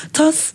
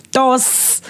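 First: Short, high, questioning [name] with a breathy-released T; rejected pronunciation. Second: Accented [name], drawn out with a D-like T; put-on accent. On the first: Host testing the name before correcting it, [name] with aspirated T. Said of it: "No, [name]". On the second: Host correcting the artist's name, drawn-out accented [name]. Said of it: "did you hear that accent". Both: Shown as a demonstration.

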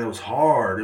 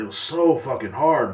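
First: Said in the usual way. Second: "so" drawn out slow and heavy, mocking; mock emphasis. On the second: Shown as a demonstration. Mocking a complainer, stretching "so" slowly. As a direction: lean on "so fucking hard", slow.

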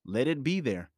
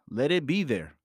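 The two takes are said the same way.

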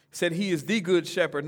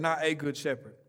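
First: "the" stressed as the one and only good shepherd. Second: "a" stressed to mean just any good shepherd. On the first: Preacher to church, stressing "the" for one shepherd. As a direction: lean on "the" to make it exclusive. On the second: Preacher to church, contrasting "a" as just one of many. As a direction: set "a" against the one before it. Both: Shown as a demonstration. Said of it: "That's an exclusive statement right there".

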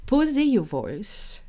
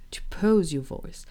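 First: "Poser" said the French way, "po-zay"; slower, higher, Poser with a French ending; French term. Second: Said in the usual way. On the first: Shown as a demonstration.

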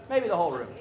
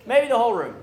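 First: Said in the usual way. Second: Loud, punched-up observation; louder emphatic repeat. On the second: Real, not acted. Preacher tells a tired crowd it is everyone, louder emphatic repeat. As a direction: raise the volume to the whole room.

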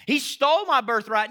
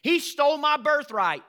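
First: Loud aggrieved mock complaint; he stole my birthright, whined; mock victim whine. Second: Loud, aggrieved mock complaint; whining he stole my birthright; mock victim whine. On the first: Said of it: "revise history once we feel victims". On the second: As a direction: play the wronged victim, loudly.

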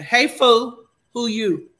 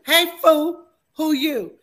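First: Loud, blunt "Hey, fool, who you?"; mock tough greeting; rough callout. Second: "Hey, fool" pitched higher and louder; hammed-up tough challenge; louder rough callout. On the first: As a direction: bark it at a stranger. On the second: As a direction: repeat it bigger, mock tough. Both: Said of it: "Not even a cool fool".

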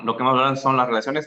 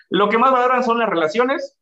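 First: Said in the usual way. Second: Más lifted high and louder; stress on más. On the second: Shown as a demonstration. Host stressing what phlegmatics value, más emphasized. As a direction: lean hard on más.

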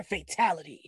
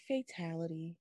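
First: The line as a fan wanted it; energetic catchphrase. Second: Very soft, low mumble; Liu Kang, low energy. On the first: Shown as a demonstration. Disappointed fan showing the wanted delivery, energetic catchphrase. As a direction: put some energy into the announcement. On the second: Retold or imitated. Critic mimicking how the actor said it, low-energy mumble. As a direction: say the big line with zero energy. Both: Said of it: "I wanted some energy in that shit".

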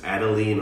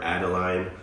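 First: Adeline ending like "leen"; first pronunciation. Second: Adeline ending like "line"; alternative pronunciation. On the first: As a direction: say Adeline with a long "ee" in the last syllable. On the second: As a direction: say Adeline with a long "i" in the last syllable. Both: Shown as a demonstration. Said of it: "I don't know how to pronounce it".

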